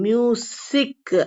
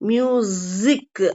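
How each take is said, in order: First: The middle consonant is an s sound. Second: The middle consonant is a z sound. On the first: The speaker calls it wrong. "மியூசிக் அப்படின்னு sound வராது" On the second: The speaker calls it right. "மியூசிக் அப்படிங்கிற sound தான் வரும்"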